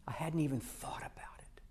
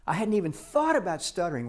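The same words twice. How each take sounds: First: "I hadn't even thought about it" fully whispered, no voice; hushed aside in wonder. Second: Said in the usual way. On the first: Shown as a demonstration. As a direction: breathe the realization to yourself. Realization said under breath.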